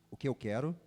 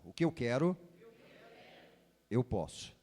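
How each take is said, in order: First: Said in the usual way. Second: Solemn booming prophet proclamation. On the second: Shown as a demonstration. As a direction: proclaim it like an Old Testament prophet. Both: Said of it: "voz de profeta".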